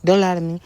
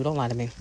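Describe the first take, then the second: First: Louder. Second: Quiet. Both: Shown as a demonstration.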